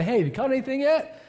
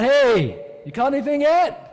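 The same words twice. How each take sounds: First: High, friendly call to a stranger fishing; casual friendly hail, lifted high at the end; friendly greeting. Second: Loud, high call across the water; yelling out. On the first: Retold or imitated. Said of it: "I just wanna feel pretty friendly". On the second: Acted. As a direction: holler it to a boat far offshore. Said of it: "yells out".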